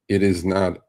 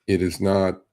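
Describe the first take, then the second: No difference in how they are said.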